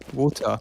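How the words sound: It is said in a British accent.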